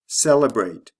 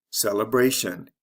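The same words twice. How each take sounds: First: "Celebrate" stressed CEL-e-brate, first syllable loud. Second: "celebration" stressed cele-BRA-tion; stress before the ending. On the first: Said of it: "is actually the first syllable of these words". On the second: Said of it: "the stress comes right before the ending". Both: Shown as a demonstration.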